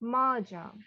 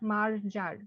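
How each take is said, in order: First: The R sounds are silent. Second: The R sounds are clearly pronounced. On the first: The speaker calls it right. "আরটা silent হয়ে যাবে" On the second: The speaker calls it wrong. "It's not মার্জার, no"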